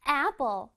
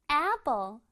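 No difference in how they are said.

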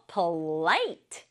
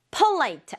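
First: "polite" with short first syllable, long rising LITE; stress on LITE. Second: "Polite" wrongly stressed on the first syllable, PO-lite. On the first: Teacher corrects pupils, "polite" stressed on LITE. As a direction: punch the second syllable of "polite". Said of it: "light 부분에 줘야 돼요". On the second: Teacher shows pupils the mistake, "Polite" stressed on PO. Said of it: "Polite 아니고 polite". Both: Shown as a demonstration.

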